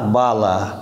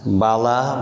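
First: বালা with pressure on the বা; weighted opening বা in বালা; stressed first syllable. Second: Said in the usual way. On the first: Shown as a demonstration. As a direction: lean into the বা of বালা. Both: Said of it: "আমরা জেনে গেলাম".

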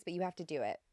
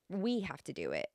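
First: Said in the usual way. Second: Light stress on "We" at the start; "We" set apart as the key word; emphatic we. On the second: Retold or imitated. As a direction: lean gently on "We", then let the rest fall. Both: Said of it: "that emphatic 'we'".

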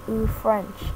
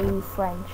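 First: A lightly amazed little "Ooh, French"; catchphrase. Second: A lightly amazed "Ooh, French", said a bit softer; catchphrase. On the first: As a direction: marvel at it, half to yourself. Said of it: "catchphrases like". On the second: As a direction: marvel at something quietly. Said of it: "I'll say". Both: Shown as a demonstration.

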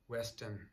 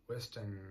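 Both takes have the same delivery.

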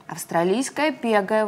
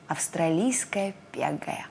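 First: Важно. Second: «Австралийская пегая» шёпотом, медленно; прошепчи медленно, будто секрет; таинственный шёпот. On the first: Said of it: "важно сказал заяц". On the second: Лягушонок отвечает таинственно. (шёпот лягушонка) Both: A narrator's reading.

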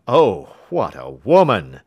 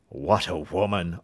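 First: Much louder admiring cry of a king; loud astonished exclamation. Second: Amazed cry. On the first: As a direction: burst out in loud wonder. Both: Acted. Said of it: "cried the King of Bohemia".

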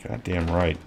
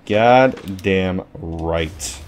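First: Said in the usual way. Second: Goddamn stretched very slow and low; slow, soft, smug drawl on goddamn right; drawn out. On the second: Real, not acted. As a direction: savor each syllable of goddamn, slowly. Repeats the phrase drawn out.

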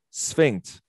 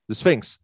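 First: Sphinx said as a careful first try; attempted pronunciation. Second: Sphinx landed cleanly with its final ks; corrected pronunciation. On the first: Coach struggling to say the name in English, attempting Sphinx. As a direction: try out the word Sphinx, not quite landing it. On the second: Coach getting the exercise name out at last, Sphinx pronounced correctly. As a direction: say Sphinx as the successful retry. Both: Shown as a demonstration. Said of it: "that's it".

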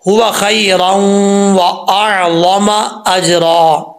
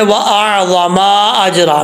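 First: Very slow, meem short in अअज़म; correct recitation. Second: Meem held long in अअज़म; wrong reading. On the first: Teacher reciting the last verse correctly, slow. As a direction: chant अअज़म अजरा without lengthening the meem. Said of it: "यहाँ पर देखें". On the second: Teacher imitating the common mistake, lightly. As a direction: stretch the मीम in अअज़म. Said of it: "मीम को लंबा कर जाते हैं". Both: Shown as a demonstration.

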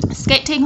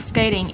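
First: SKATING with a true T, "skay-ting"; clear T. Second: SKATING said "skay-ding"; flapped T. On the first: Teacher giving learners the first option, SKATING with clear T. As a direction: keep a crisp T in SKATING. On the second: Teacher giving learners the other option, SKATING with flapped T. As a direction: turn the T of SKATING into a quick D. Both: Shown as a demonstration. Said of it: "T trung âm ở đây".

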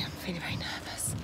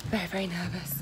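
First: Whispered, very soft, nerves showing; nervous whisper. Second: Quiet, half-voiced nerves; a hushed admission of nerves; soft nervous voice. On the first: Rider before the competition whispers her nerves to camera. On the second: Rider before the competition repeats her nerves quietly. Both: Real, not acted.

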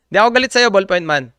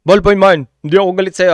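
First: Rushed through a laugh, fast and light. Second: Louder, pressing each word home to ballpoint man; emphatic reassurance. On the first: Real, not acted. Reassuring the ballpoint user while laughing fast. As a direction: laugh it out quickly, half joking. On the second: Shown as a demonstration. Telling the ballpoint user firmly, not angry. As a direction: insist firmly that you are not angry.

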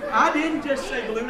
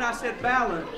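First: Said in the usual way. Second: "balloon" said like BAL-un; mispronounced balloon. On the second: Shown as a demonstration. Magician insisting on his odd word, mispronounced "balloon". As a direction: deliberately say "balloon" with a stressed first syllable.

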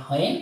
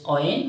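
First: WHEN with an h sounded at the start; wrong pronunciation. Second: WHEN said with a plain w start, no h sound; right pronunciation. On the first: Teacher showing learners what to avoid, WHEN with a sounded h. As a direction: say WHEN as "hwen", aspirated. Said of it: "বা not when". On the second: Teacher showing learners the right pronunciation, WHEN without an h. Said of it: "right pronunciation হলো". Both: Shown as a demonstration.

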